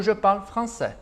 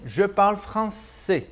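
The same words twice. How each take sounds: First: "je parle français" ending on open è; open Parisian ending. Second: Slow "Je parle français", ending on closed é; closed southern ending. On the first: Teacher gives students the alternative, "français" open as in Paris. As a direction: open the last vowel of "français". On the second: Teacher gives students one option, "français" closed as in the south. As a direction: draw out "français" with a tight final vowel. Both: Shown as a demonstration. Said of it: "os dois são factíveis".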